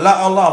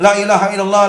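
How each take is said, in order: First: The middle of the phrase is swallowed entirely. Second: The whole phrase is said rapidly but fully. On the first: It ends up saying there is no God. "Akhirnya la Allah" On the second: It still says there is no god but God. "dibaca sebanyak-banyaknya dan secepat-cepatnya"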